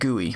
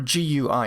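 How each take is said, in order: First: It is pronounced as a single word. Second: It is spelled out letter by letter. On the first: "instead of G U I" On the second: "or G U I"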